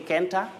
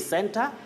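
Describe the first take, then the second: First: The word begins with a K sound. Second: The word begins with an S sound. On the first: The speaker calls it wrong. "Do we say Kenta" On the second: The speaker calls it right. "it has sound S in center"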